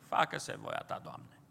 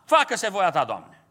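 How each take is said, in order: First: It is said in a resigned, giving-up tone. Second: It is said in an angry, resentful tone. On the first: The speaker accepts it because there is no other choice. "cu resemnare. Și așa n-am ce face" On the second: The speaker does not like what is being accepted. "cu mânie. Adică chiar nu le convine"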